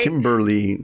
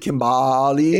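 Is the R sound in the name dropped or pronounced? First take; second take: pronounced; dropped. First: The name is said with a clear R sound. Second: The name is said without the R sound. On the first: The speaker calls it right. "I got the R" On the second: The speaker calls it wrong. "it wasn't Kimbali"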